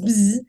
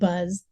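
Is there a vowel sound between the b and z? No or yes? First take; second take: no; yes. First: The word is said with no vowel sound. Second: The word is said with a clear vowel sound. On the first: "it was bzz, and I used to say we, we can't afford to buy the vowel" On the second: "we pronounce it buzz"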